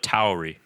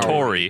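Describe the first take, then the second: First: The first vowel sounds like 'ow'. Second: The first vowel sounds like 'or'. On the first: The speaker calls it right. "the correct pronunciation is Alpha Tauri" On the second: The speaker calls it wrong. "not Tori"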